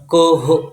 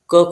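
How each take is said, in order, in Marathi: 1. शेवटचा h पूर्ण उच्चारला जातो. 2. शेवटचा h फक्त अर्धा उच्चारला जातो. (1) "पूर्ण क ह असा पूर्ण ह सारखा उच्चार नाही करणार" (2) "क खनती असा उच्चार करणार त्याचा"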